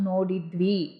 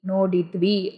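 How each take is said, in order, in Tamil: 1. அசைகள் சுருக்கப்பட்டு ஒன்றாகச் சேர்ந்து சொல்லப்படுகின்றன. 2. அசைகள் சுருக்கப்பட்டு ஒன்றாகச் சேர்ந்து சொல்லப்படுகின்றன.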